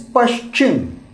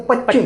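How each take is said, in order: First: The middle has a clear 'sh' sound. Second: The middle has no clear 'sh' sound. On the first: The speaker calls it right. "pa, sh, pash ... So it is Paschim" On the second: The speaker calls it wrong. "where the pronunciation of the people is not very clear, they may pronounce it as a Pachim"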